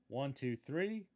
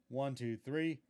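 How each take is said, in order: No difference in how they are said.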